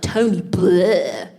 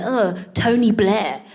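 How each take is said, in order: First: BLAIR drawn out into a long "bleurgh"; name as a sound. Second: Said in the usual way. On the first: Retold or imitated. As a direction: stretch Blair into a sloppy, disgusted noise. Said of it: "his name sounds like". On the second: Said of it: "was telling a joke".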